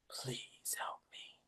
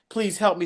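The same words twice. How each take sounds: First: It is said slowly and faintly. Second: It is said with strong, urgent energy.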